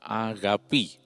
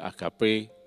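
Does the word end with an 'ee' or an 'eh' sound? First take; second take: ee; eh. First: The word ends with an 'ee' vowel. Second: The word ends with an 'eh' vowel. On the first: This is the Greek reading. The speaker calls it right. "sebetulnya pengucapan yang benar adalah agapi" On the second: This is the commonly heard form. The speaker calls it wrong. "seringkali digembar-gemborkan sebagai agape"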